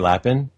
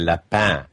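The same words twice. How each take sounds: First: The name is said with English pronunciation. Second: The name is said with French pronunciation. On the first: The speaker calls it right. "Do I pronounce yours right when I say Lapin?" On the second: The speaker calls it wrong. "I always wanted to go French with it"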